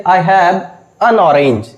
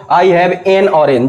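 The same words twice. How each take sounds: First: I have an orange with an as a short un; weak short un before orange. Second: I have an orange with an as en; the wrong en for an. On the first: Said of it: "सही क्या है?". (an को अन बोलें, सही) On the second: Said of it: "absolutely wrong pronunciation". (an को एन बोलना, गलत) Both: Shown as a demonstration.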